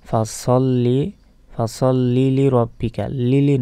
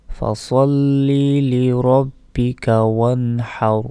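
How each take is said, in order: First: "লি লি" run together as one "লিলি"; wrong word joining. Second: "সল্লি" drawn out, then a distinct "লি রব্বিকা"; correct recitation. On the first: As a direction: join the end of "সল্লি" onto "লি" as "লিলি". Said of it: "বলা যাবে না যে". ("লিলি" জুড়ে ভুল উচ্চারণ) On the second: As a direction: chant slowly, keeping "সল্লি" and "লি" as separate words. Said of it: "এইভাবে উচ্চারণ করবেন". ("সল্লি" টেনে, "লি রব্বিকা" আলাদা করে তিলাওয়াত) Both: Shown as a demonstration.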